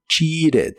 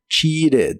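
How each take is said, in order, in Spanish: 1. La t del medio suena como una r rápida. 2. La t del medio suena como una r rápida.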